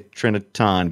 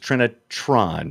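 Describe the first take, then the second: First: The word is said fast and squashed together. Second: The word is said carefully with every syllable clear. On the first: The speaker calls it wrong. "I do sometimes say it too fast and say Trinitron, but it's not" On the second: The speaker calls it right. "It's Trinitron"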